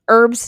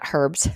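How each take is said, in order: First: The word starts without an h sound. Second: The word starts with an h sound. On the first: The speaker calls it right. "the H is silent" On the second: The speaker calls it wrong. "not herbs"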